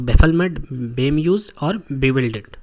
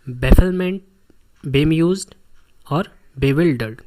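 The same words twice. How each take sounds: First: Loud, punched first word then a drawn-out slow finish; teacher spelling out new words for the class, firmly and loudly; emphatic listing. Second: Each word hammered out louder with pauses between; loud drilling repeat. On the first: Teacher lists confusion synonyms. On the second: Teacher drilling the class on the same words, loud and slow. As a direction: repeat each one loud and separate, dragging out bewildered very slowly. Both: Shown as a demonstration.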